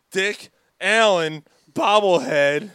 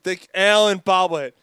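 First: "Dick Allen bobblehead" with "Allen" slow, loud and higher; mocking the announcer by punching "Allen" slowly and loudly; mock emphasis on Allen. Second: "Dick Allen bobblehead" with "Allen" pushed out louder and higher; loud mocking stress on "Allen"; mock emphasis on Allen. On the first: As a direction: lean hard on "Allen", dragging it out like a radio ad. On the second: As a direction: hit "Allen" hard, ad-read style. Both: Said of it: "He even emphasizes it".

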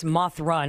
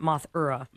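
First: "Mothra" in two syllables, MOTH-ruh; corrected pronunciation. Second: "Mothra" in three syllables, MOTH-er-uh; mistaken pronunciation. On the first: Searcher correcting the spelling, "Mothra" said as two syllables. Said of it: "not, it's Mothra, not Mothra". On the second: Searcher showing the wrong spelling, "Mothra" said moth-er-uh. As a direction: add an "er" inside "Mothra". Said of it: "not Mothra". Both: Shown as a demonstration.

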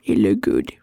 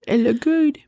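First: "It look good" dropped very low; low, falling "good"; low-pitched repeat. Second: "it look good" with GOOD lifted high; sigh, then let "good" float up high; higher, rising "good"; high-pitched "good". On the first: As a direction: sink right down on "look good". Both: Pretend. Repeats the phrase two contrasting ways.

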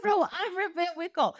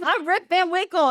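First: High, softer comic comeback; retold bewildered counter-claim, close to laughing; original Rip. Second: Lightly voiced younger man announcing himself; higher, assertive mock introduction; younger Rip. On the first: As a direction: answer back lightly in mock surprise. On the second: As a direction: state the name brightly as the other Rip. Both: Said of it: "original Rip is, who are you?".

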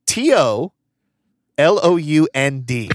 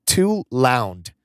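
First: T O L O U N D, each letter said separately and slowly; spelled out letter by letter. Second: Said in the usual way. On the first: Shown as a demonstration. Host spelling the misspelled note for grammar fans, slow and deliberate. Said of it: "for my grammar people out there". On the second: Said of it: "It says".

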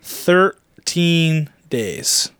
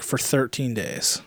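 First: Thirteen days said very slowly, each word drawn out; dragged-out emphasis. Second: Slow, softer whispered aside. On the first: Repeating to his co-host how long it lasted, drawn-out emphasis. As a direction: stretch Thirteen days to make it sink in. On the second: Telling co-host Kirk about his deaf ear, whispered. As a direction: whisper it like a grim secret. Stressing how long he's been deaf. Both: Real, not acted.

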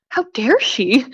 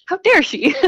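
First: Indignant how dare she, the word dare leaned on; half-joking shock at the coworker's nerve, dare stressed; mock outrage. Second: How dare she pitched high and louder, dare hit hard; playfully scandalized, punching dare; high mock outrage. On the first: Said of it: "I remember thinking". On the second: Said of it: "I was like".

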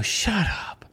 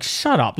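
First: "Shut up" breathed out, airy and teasing; playful whispered shut up. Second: Demeaning. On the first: Shown as a demonstration. Host shows a co-host how she says it, teasing whisper. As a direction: whisper "Shut up" like a friendly joke. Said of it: "What about the way I do? Sometimes I go". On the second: Retold or imitated. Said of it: "it was so demeaning the way he said it".

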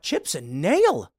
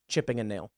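First: Slow, disbelieving "Chips and nail?" said as chips and nail; incredulous repeat. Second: Said in the usual way. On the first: Retold or imitated. Repeating a viewer's garbled phrase to mock it, slow and disbelieving. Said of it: "I'm like".

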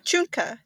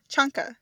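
First: "Chunka" with an oo sound, choonka; oo-vowel pronunciation. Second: "Chunka" with an ah sound, chahnka; ah-vowel pronunciation. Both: Shown as a demonstration. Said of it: "Or is it chunka?".

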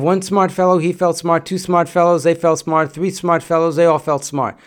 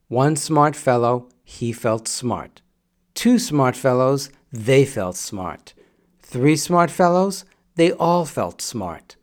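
First: Quicker run through the tongue twister; brisk recitation. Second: Slow, deliberate tongue twister; slow careful recitation. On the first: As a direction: rattle it off at normal speed. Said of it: "When you say it quickly". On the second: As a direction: say each phrase slowly and carefully. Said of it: "you say it slowly for one reason". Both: Shown as a demonstration.

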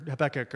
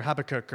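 First: Habakkuk with stress on the middle, huh-BECK-uk; second-syllable stress. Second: Habakkuk with stress on the first syllable, HAB-uh-kook. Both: Shown as a demonstration. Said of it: "however you wanna say it".

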